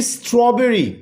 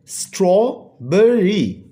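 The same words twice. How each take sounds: First: Said in the usual way. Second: स्ट्रॉबेरी slowly split as straw-ber-ry; teacher sounding out स्ट्रॉबेरी, pausing between syllables. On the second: Shown as a demonstration. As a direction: break स्ट्रॉबेरी into three separate beats. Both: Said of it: "three syllable word है".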